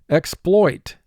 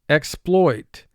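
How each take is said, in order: The two takes are said the same way.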